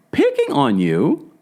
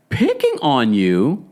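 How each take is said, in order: First: High, slow, mocking disbelief; high mocking echo; incredulous. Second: Slow, doubtful echo of her words; slow skeptical repeat; slow questioning. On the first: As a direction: throw it back way up high in disbelief. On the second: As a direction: repeat it back slowly, weighing it. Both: Real, not acted. Disbelief at Meredith's claim.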